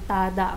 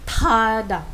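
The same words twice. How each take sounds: First: The first t is said without a puff of air. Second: The first t is said with a puff of air. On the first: The speaker calls it wrong. "hindi lang tada ang basa man yan" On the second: The speaker calls it right. "may hangin kapag binigkas mo siya"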